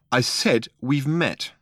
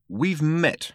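First: "I said we've met" slowed right down, each word spelled out; slow insistence. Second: A hint of sharpness on "We've met"; sharp. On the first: Arthur repeats himself to Ford, slow and insistent. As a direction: repeat it slowly, leaning on "met". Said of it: "he said". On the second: Arthur interrupts the introduction, sharply. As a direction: cut in with a short, curt "We've met". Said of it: "said Arthur sharply". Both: A narrator's reading.

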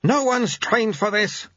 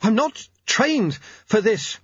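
First: High, slow growling retort; acted gruff rebuke; growled. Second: High, slow, halting complaint; straining to talk while running; breathless protest. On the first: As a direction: growl it back, stretching the words. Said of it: "growled Lutze". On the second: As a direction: push it out word by word, pitched high. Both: A narrator's reading.

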